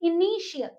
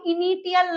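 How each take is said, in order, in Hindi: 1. बीच का व्यंजन 'sh' ध्वनि है। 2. बीच का व्यंजन 't' ध्वनि है। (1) "टी का साउंड जो है वो श हो जाता है" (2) "उसको हम इनिटियल नहीं बोलेंगे"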